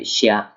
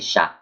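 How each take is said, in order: First: It is said as two linked syllables. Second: It is said as one single syllable. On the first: The speaker calls it wrong. "you don't say xia" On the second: The speaker calls it right. "you just say sha"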